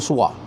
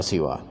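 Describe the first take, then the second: First: The first vowel is a u sound. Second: The first vowel is an i sound. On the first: "dengan domah" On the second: "dengan kasroh sin ya"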